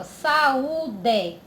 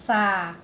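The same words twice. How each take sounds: First: "Saúde" said connected, each vowel clear; whole word. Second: "saúde" in three beats, sa, u, de; split into syllables. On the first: Teacher showing vowels together, "Saúde" said as one word. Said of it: "Tão juntinho na mesma". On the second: Teacher separating the word for pupils, "saúde" syllable by syllable. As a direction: break "saúde" apart with pauses between syllables. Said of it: "Vai separar". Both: Shown as a demonstration.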